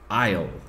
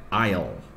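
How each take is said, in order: First: The two words merge into one short syllable. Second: The two words merge into one short syllable.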